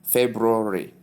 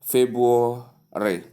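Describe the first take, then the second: First: "February" as FEB-roo-ree; correct pronunciation. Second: "February" slowly as FEB-waw-ree, first R gone; wrong pronunciation. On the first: Teacher models February for learners, correct pronunciation with R. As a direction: sound the first R in "February", right after the B. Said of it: "that's the pronunciation". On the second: Teacher shows common misuse, slow mispronunciation without first R. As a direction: drop the R after the B in "February", slowly. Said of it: "many say". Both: Shown as a demonstration.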